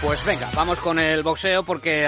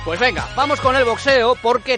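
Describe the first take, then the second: First: It is said softly with little energy. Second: It is said loudly with lots of energy. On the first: The speaker calls it wrong. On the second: The speaker calls it right.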